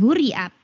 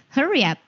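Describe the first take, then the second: First: "hurry up" misread as hoo-ree up; mispronounced "hurry", spelled-out u sound; wrong HURRY UP. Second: "hurry up" with an uh vowel, higher pitched; "hurry up" pronounced properly, huh-ree; correct HURRY UP. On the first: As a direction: say "hurry" with an oo vowel. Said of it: "bukan hurry up". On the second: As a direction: say "hurry" as her-ee. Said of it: "bukan hurry up, tetapi hurry up". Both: Shown as a demonstration.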